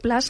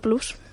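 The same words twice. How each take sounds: First: The word is pronounced the English way. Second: The word is pronounced the Spanish way. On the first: The speaker calls it right. "En inglés se dice Plus. O sea, se dice Plus" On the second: The speaker calls it wrong. "no Plus"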